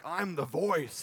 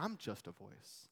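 First: Louder, higher, grand announcement; mock self-importance. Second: Soft, slow, low-pitched humility; humble. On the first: Showing what John is not like, mock self-important. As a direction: proclaim it like a big shot. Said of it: "he's not like". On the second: Acted. John downplaying himself to his questioners, quietly humble. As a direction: shrink it down modestly, unhurried. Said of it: "You feel the humility in that?".

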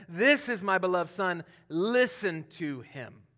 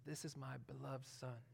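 First: Fuller, proclaiming, with a slow listen to him; spoken to the disciples. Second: Hushed, intimate words meant for one son; spoken privately to him. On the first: God addressing the disciples from the cloud, proclaiming. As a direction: announce it to the whole group. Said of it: "he's talking to the disciples". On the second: God speaking privately to Jesus at baptism, hushed. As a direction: say it softly as if only to him. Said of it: "he's talking to him". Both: Retold or imitated.

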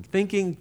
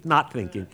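First: THINKING pitched up high; high-pitched thought. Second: Dropped-pitch answer. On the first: Storyteller mimicking a young kid's wavering mind, high-pitched. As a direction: lift THINKING up like one side of a wavering mind. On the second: Storyteller mimicking a young kid's wavering mind, pitch dropped. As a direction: let NOT THINKING fall as the other side of a wavering mind. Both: Acted.

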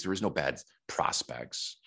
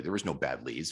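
First: "There was no bad prospects" slowed down, with "no" leaned on and falling; measured insistence that "no" bad prospects exist; slow, firm stress. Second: Said in the usual way. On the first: Shown as a demonstration. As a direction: drive it home slowly, pressing on "no". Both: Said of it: "You gotta take responsibility".

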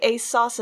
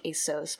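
First: "a sauce" rhyming with boss; "a sauce" with an open aw vowel; sauce pronunciation. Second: "a sauce" said as "ay-sose"; quiet, low "a sauce", vowel as in "so"; soft "so" pronunciation. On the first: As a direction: say "a sauce" like the cooking sauce. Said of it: "I don't say a sauce as". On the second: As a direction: say "a sauce" with a long O. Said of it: "I say it as, like". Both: Shown as a demonstration.

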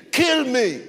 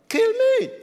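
First: Imitated scream. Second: Much higher, strained cry of kill me; preacher's scream pushed to its peak; imitated scream. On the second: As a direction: let the second cry break up high. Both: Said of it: "this man started screaming at me".

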